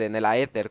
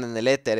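First: "aéter" said as a-e-ter, with an extra a before the e; "aéter" stressed on the é after a separate a. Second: "éter" said as three syllables, e-te-r; "éter" with stress on the first e. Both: Shown as a demonstration. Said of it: "como le quieran llamar".

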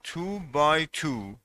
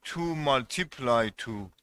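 First: Slow, with "by" stressed; correct reading. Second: Said in the usual way. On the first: Shown as a demonstration. Teacher modelling the correct phrase for students, slow and clear. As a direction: read "two by two" slowly, leaning on "by". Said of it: "میگید two by two". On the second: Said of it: "نمیگید two multiply two".

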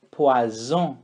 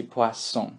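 First: Poisson with a buzzing Z, like poison; wrong Z sound. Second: Poisson with a clear S; correct S sound. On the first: Teacher shows the Brazilian mistake on poisson. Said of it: "imagine que ... o som do Z". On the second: Teacher contrasts the correct poisson with the mistake. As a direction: say poisson properly with an S. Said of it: "que é o correto". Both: Shown as a demonstration.

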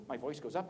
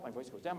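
First: "up" lifted at the end; voice going up. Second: "down" set a little lower; voice going down. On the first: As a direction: let the voice climb on "up". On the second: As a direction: let the voice sink on "down". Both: Shown as a demonstration.

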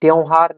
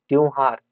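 First: त्योहार as the rejected form, first vowel leaned on; wrong pronunciation. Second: Said in the usual way. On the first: Shown as a demonstration. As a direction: stress the faulty vowel in त्योहार. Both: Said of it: "त्योहार नहीं".

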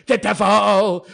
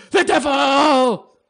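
First: Laughing through the words. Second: Slow, higher, louder devil intonation; mock devil. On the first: Real, not acted. Vlogger laughing at being called the devil, laughing. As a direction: chuckle it out. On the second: Vlogger savoring being called the devil, hammed-up devil. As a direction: draw it out theatrically.

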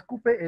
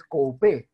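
First: Coupé said cupé, with u only; plain u in coupé; everyday pronunciation. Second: Coupé said co-u-pé, louder; corrected vowel pair. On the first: Teacher quoting the form to correct, said cupé. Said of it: "pero no es coupé". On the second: Teacher correcting coupé for students, stressing co-u-pé. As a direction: sound o then u in coupé. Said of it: "es coupé". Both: Shown as a demonstration.

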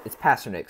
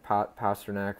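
First: "Pastrnak" ending in a short "nik"; corrected pronunciation. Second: "Pastrnak" ending in a full "nak", rhyming with back; alternative pronunciation. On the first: Collector correcting himself on a player's name, corrected pronunciation. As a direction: say "Pastrnak" as PASS-ter-nick. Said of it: "sorry, Pastrnak". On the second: Collector trying another way to say a player's name, alternative pronunciation. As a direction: stumble on "Pa-", then end "Pastrnak" on "-nack". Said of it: "but, but it's Pastrnak". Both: Shown as a demonstration.

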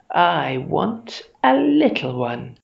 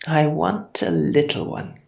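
First: Slow, emphatic monster demand; growling, more insistent. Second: Mildly growled monster craving; growling. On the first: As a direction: stretch it out, rising hungrily on "little". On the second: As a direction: say it hungrily, with a touch of growl. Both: A narrator's reading. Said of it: "she was growling".

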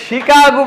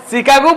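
First: শিকাগো begun with a clear "shi"; correct Chicago pronunciation. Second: শিকাগো mispronounced with a ch/s opening instead of sh; wrong Chicago pronunciation. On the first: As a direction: say শিকাগো with sh, as in French, not ch. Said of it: "এটা শিকাগো বলতে হইব". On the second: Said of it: "শিকাগো বললে হবে না". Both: Shown as a demonstration.

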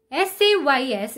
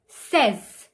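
First: Says said as sayz; says rhyming with pays. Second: Says rhyming with fez; says as sez. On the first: Teacher showing the wrong says. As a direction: say says with a long ay. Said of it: "is not". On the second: Teacher modelling says. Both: Shown as a demonstration.

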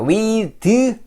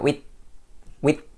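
First: With said like Korean 위드; wrong 위드 for with. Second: With ending in a bitten-tongue th; tongue between teeth. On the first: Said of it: "with 하지 마시고". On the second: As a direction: bite the tongue for with. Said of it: "혀만 깨물어주세요". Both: Shown as a demonstration.

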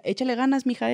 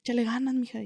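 First: Imitated northern accent. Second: A hint of a norteño accent; northern Mexican accent. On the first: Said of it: "así me decía, con su acentito". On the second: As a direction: lightly put on the northern lilt, like a kindly older inmate. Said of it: "con su acentito, ¿ves?".

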